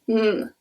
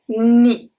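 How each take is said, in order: First: It sounds like a plain n alone. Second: It sounds like n followed by a y-glide. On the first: "it's just a N" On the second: "it's like a N and an E after"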